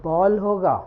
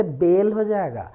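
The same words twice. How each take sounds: First: बॉल with a short b sound and open "aw" vowel; बॉल opened wide, rhyming with "hall"; correct phonic reading. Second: बेल with a closed "ay" vowel from the letter name; बेल, the mistaken reading with "ay"; letter-name misreading. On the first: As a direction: say बॉल as English "ball". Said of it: "अगर हम ब बोलेंगे". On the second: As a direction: say बेल like "bail" in place of "ball". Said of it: "ना कि बी बोलेंगे". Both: Shown as a demonstration.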